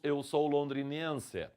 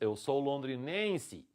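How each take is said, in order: First: The final vowel is a clear 'e' sound. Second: The final vowel sounds like an 'i'. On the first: "Nós não falamos" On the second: "como se fosse um I no finalzinho"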